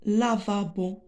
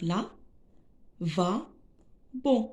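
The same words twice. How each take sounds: First: Said in the usual way. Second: "là, va, bon" as three isolated syllables; split into syllables. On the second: Shown as a demonstration. Teacher sounding out lavabo for pupils, syllable by syllable. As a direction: pause after each of "là, va, bon". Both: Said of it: "Quelle est la syllabe".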